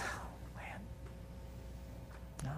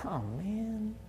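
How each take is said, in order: First: Breathy whispered disappointment; whispered gentle rebuke. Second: A soft, let-down oh man; mild disappointed sigh; quiet sigh. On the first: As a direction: whisper it like a head-shaking Jesus. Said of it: "shakes his head and says". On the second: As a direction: sigh it out under the breath, head shaking. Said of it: "shook my head and said". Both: Retold or imitated.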